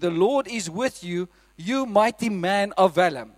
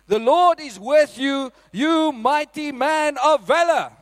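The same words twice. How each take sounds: First: The line is said flatly, without exclamation. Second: The line is said forcefully, as an exclamation. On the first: The speaker calls it wrong. "No, it doesn't say it like that" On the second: The speaker calls it right. "so that's how he said it, because it's an exclamation mark at the end"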